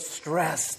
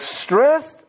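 First: "stressed" dropped low and soft, falling; lower, softer "stressed". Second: "Stressed" pitched high with a lift at the end; "Stressed" said high and rising; higher rising "Stressed". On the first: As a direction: sigh the word "stressed" down. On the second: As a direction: toss "Stressed" up high as a question. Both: Shown as a demonstration. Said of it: "Everybody say that word".

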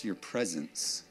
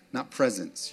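First: "your" drawn out low and soft, slowly; "your" pressed gently, the whole phrase slow and soft; stress on your. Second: Said in the usual way. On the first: Shown as a demonstration. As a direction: lean on "your" softly before "presence". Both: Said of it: "Not presence, your presence".

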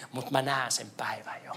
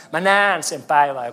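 First: Hushed whisper of a vision; soft whispered promise. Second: Said in the usual way. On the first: Acted. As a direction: breathe it like a secret hope. Vision, then repeated aloud.

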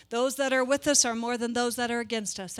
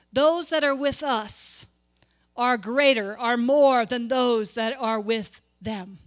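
First: Even, quick reading of the misquote; misquoted version. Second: Slow, deliberate, weight on "more" and "with them"; correct wording stressed. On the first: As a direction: read it the familiar wrong way, no weight on "against us". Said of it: "this is how I would quote it". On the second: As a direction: lean on "with them" to show the true wording. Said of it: "That's not what the word says". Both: Shown as a demonstration.

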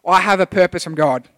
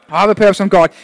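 First: Said in the usual way. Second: Louder, declared like a vow; congregation-style loud repeat. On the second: Shown as a demonstration. Congregation repeats the pastor's line, loud and firm. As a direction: proclaim "purpose" firmly. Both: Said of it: "repeat it after me".

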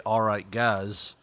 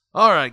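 First: Said in the usual way. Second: Loud showman's call to the crowd; ringmaster. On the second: Shown as a demonstration. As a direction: open it big like a ringmaster. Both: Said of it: "I guess I should say".

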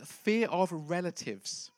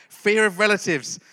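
First: Said in the usual way. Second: Louder repeat. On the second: Shown as a demonstration.

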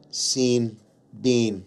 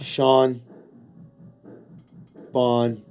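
First: Scene and Bean rhymed with a long ee; rhyming mispronunciation. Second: Sean and Bon rhymed, each said on its own; rhyming pronunciation. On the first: Host complaining about English spelling, deliberate rhymed mispronunciation. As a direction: say "Scene" and "Bean" separately, both with ee. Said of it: "why are you doing this to me, English". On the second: Host showing how the name should rhyme, deliberate rhymed pronunciation. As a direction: say "Sean" and "Bon" both with an aw vowel, spaced apart. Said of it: "now say it in your head". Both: Shown as a demonstration.

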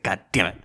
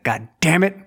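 First: Low, softer grumbled curse; resigned, quieter mock annoyance; muted mock exasperation. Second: Higher-pitched exasperated curse; playful show of annoyance; mock exasperation. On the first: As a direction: curse it under your breath, playacting. Same curse retold, crew laughing. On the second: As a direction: act out an exasperated outburst. Retold embarrassment before chuckling crew.

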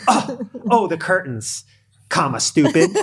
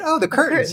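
First: Mock contemptuous quote, starting high, ending loud; imagined insult. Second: Light, high-pitched passing remark; innocent noticing. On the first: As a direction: play up an accusing jab that was never meant. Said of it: "She didn't say anything like that". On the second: Retold or imitated. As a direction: quote it as a harmless little observation. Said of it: "She just noticed that they didn't get replaced".

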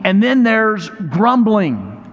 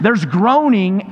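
First: Slow, stretched "grumbling"; drawn-out grumbling. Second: Slow, stretched "groaning"; drawn-out groaning. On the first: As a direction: draw out "grumbling" slowly as the contrast word. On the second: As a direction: draw out "groaning" slowly to set it against "grumbling". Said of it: "make that noise". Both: Shown as a demonstration.

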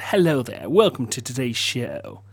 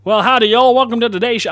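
First: Low, soft, proper British accent; natural proper accent. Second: Higher, hammed-up American country greeting; all-American accent. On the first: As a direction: welcome them quietly in a proper British accent. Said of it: "in my natural, proper accent". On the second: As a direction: greet them in a big Southern American accent. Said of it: "being all American". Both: Shown as a demonstration.

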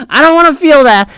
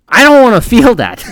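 First: High, hammed-up fake sob; mock crying. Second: Said in the usual way. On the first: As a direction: whine it like a fake wail. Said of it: "repeat with fake cry". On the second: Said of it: "laughs, cry".

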